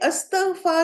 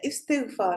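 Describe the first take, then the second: First: The word begins with an 'a' vowel. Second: The word begins with an 'i' vowel. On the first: The speaker calls it wrong. "अलिफ पे जबर होती है" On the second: The speaker calls it right. "इस्तिगफार जो है वो correct है"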